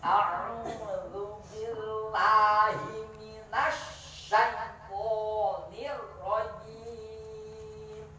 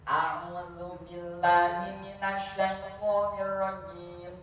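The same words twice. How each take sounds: First: It is recited very slowly and carefully. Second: It is recited at a moderate, smooth pace. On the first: "Itu apa? Tahqiq"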